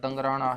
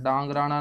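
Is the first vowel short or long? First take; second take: short; long. First: The first vowel is a short a. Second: The first vowel is a long aa. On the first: The speaker calls it right. "ये दंगराना है" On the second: The speaker calls it wrong. "डांगराना नहीं"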